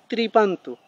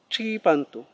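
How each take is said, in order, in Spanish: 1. La palabra empieza con sonido tr. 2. La palabra empieza con sonido ch. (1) "no es tripantu. Que no suene como tri"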